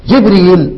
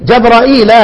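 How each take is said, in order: First: جبريل with no hamza, short ريل; without hamza. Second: جبرائيل with a long alif and hamza before the ياء. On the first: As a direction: say جبريل as two short syllables. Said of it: "ادي الاربع قراءات". (جبريل بترك الهمز) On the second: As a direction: say جبرائيل as four syllables. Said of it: "يبقى عندي ايه". (جبرائيل بالهمزة والمد) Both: Shown as a demonstration.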